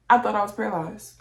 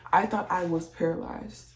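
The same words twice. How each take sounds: First: Louder, faster insistent repeat; emphatic repeat. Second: Said in the usual way. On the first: Real, not acted. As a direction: hammer it home, louder.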